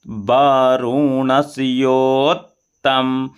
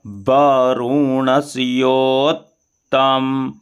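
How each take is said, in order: First: वरुणस्योत्तम said again slowly, double t held; doubled t in वरुणस्योत्तम. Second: वरुणस्योत्तम with the double t held, "ot-tam"; doubled t in वरुणस्योत्तम. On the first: (वरुणस्योत्तम धीरे, दोहरे त के साथ) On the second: (वरुणस्योत्तम में दोहरा त साफ़ बोलें) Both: Shown as a demonstration. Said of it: "double ता है तो एक ता को इधर ले आ लेंगे".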